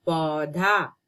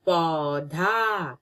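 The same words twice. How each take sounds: First: Said in the usual way. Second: पौधा drawn out slowly; slow clear naming. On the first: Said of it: "क्या है ये?". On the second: Shown as a demonstration. Teacher showing a picture, saying पौधा slowly. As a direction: stretch पौधा for the children. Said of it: "ये है".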